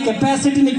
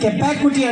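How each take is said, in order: First: The word is pronounced in the standard way. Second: The word is pronounced with distorted middle sounds. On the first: The speaker calls it right. "మీ అబ్బాయి కెపాసిటీని" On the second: The speaker calls it wrong. "కెపాకుటీ అంటున్నాడు"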